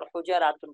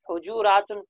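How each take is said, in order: First: حجراتن with an "a" after the j; fatha on the middle letter. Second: حجوراتن with a "u" after the j; rounded middle vowel in حجوراتن; damma on the middle letter. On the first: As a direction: say حجراتن as hu-ja-raa-tun. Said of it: "اور فتح پڑھنا بھی ٹھیک ہے". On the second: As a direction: say حجوراتن as hu-ju-raa-tun. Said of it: "عین کلمے پر ضمہ پڑھنا بھی ٹھیک ہے". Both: Shown as a demonstration.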